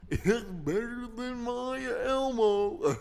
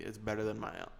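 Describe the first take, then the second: First: Loud, slow, high cartoon guffawing voice; Goofy. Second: Said in the usual way. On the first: Bragging it beats his Elmo, as a drawn-out Goofy. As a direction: stretch it out goofily with hiccupping chuckles. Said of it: "That's a Goofy".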